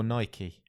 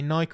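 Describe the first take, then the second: First: "Nike" said as two syllables, NY-kee. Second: "Nike" said as one syllable, rhyming with bike. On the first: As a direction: sound the final e of "Nike" as ee. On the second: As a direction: say "Nike" with a silent e. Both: Shown as a demonstration. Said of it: "Say Nike or Nike?".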